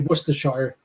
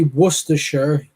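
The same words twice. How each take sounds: First: It is said with an American pronunciation. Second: It is said with a British pronunciation. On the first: "America, they'll say Worcestershire" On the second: "when we say Worcestershire"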